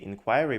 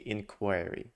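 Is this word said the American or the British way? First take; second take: British; American. First: The word has a British pronunciation. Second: The word has an American pronunciation. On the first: "in U K they say inquiry" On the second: "in the U S you can say inquiry"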